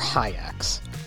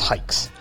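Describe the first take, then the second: First: The name is said with two vowels, 'hi' then 'acks'. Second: The name is said with a single long 'i' vowel. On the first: The speaker calls it wrong. "or hi-acks" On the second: The speaker calls it right. "It's hikes"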